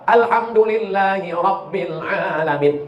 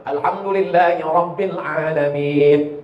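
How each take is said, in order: First: Alhamdulillahi Rabbil Alamin chanted slowly, Ra thick; slow recitation demo. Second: Alhamdulillahi Rabbil Alamin with a thick, heavy Ra and a deep A; corrected recitation. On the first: Preacher showing correct recitation, slow and chanted. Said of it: "Selalu orang salah tiga". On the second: Preacher modelling the right tajwid, slow and heavy. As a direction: give the Ra its full weight. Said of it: "Ra-nya mesti tafkhim tebal". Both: Shown as a demonstration.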